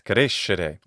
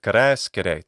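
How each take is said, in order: First: It uses the Italian pronunciation. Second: It uses the Latin pronunciation. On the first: "In Italian" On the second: "the Latin word"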